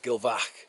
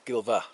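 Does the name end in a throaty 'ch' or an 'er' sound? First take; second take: throaty ch; er. First: The name ends with a throaty 'ch' sound. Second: The name ends with a soft 'er' sound. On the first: The speaker calls it wrong. "some people would pronounce it Gilvach, but no" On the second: The speaker calls it right. "it's Gilver"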